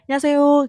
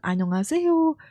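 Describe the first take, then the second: First: The greeting is said quickly with the start clipped. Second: The greeting is said slowly with every syllable full. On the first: It sounds fluent. The speaker calls it right. "biar fasih kamu cepetin aja" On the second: It sounds less fluent. The speaker calls it wrong. "jangan annyeonghaseyo"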